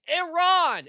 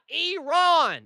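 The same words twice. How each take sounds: First: It is pronounced without an E sound. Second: It is pronounced with an E sound. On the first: The speaker calls it right. "it is Iran" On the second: The speaker calls it wrong. "It's not Iran"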